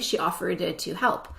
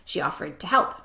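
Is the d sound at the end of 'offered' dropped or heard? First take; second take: heard; dropped. First: The d ending of offered is clearly pronounced. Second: The d ending of offered is not pronounced. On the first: "I did not say she offered to help" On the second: "I said she offered to help"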